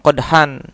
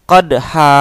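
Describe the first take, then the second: First: The word ends with an n sound. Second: The word ends with a long a vowel. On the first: This is the reading outside Quran recitation rules. "Kalau dalam ilmu shorof ataupun ilmu lain selain ilmu tajwid, membacanya memang qadhan" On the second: This is the reading under Quran recitation rules. "ketika kita membaca dalam Al-Quran secara ilmu tajwid, maka dibacanya adalah qadha"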